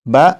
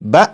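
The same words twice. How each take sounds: First: The syllable is said in a smooth, normal voice. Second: The syllable is cut off with a sharp jolt. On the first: The speaker calls it right. "Normal आवाज में पढ़ेंगे" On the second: The speaker calls it wrong. "झटका देकर पढ़ूंगा"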